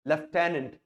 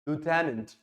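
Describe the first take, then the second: First: It is said in a British accent. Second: It is said in an American accent. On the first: "British English में इसे बोला जाता है लेफ्टेनेंट" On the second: "American"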